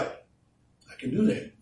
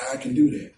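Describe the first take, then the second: First: High, slow, breathy "I can do that"; slow breathy boast. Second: Said in the usual way. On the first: Pretend. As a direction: breathe "I can do that" out slowly, as if dreaming of it. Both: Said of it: "we feel like".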